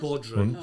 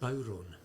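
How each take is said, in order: First: The word has a clear 'd' sound in the middle. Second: The word has no 'd' sound in the middle. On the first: The speaker calls it wrong. "that's the one you'd be hung for in Ireland" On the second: The speaker calls it right. "it's called Bowron"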